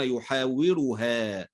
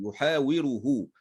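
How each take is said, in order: First: "يحاورها" ending in a long open -ha; ha with fatha. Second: "يحاوره" slowly, ending in a long -hu; masculine pronoun ending. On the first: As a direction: slowly sound out "يحاورها", drawing out final haa. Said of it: "لأنها لو جاءت مفتوحة". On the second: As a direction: sound out "يحاوره" with a damma on the final ha. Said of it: "الكلام هنا بصيغة الغائب". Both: Shown as a demonstration.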